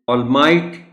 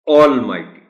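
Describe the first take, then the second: First: The stress is on the second syllable. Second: The stress is on the first syllable. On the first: "यहाँ stress एम पर है" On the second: "stress आप देंगे ए पर"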